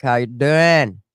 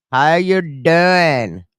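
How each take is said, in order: First: Said in the usual way. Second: Very slow stretched "How you doing?" with each word pulled long; drawn-out playful greeting. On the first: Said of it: "greeting, then repeated drawn out". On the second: Acted. Vlogger greeting a viewer called Maniac, in a slow teasing drawl. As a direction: drag out "How you doing?" like a cheesy pickup line.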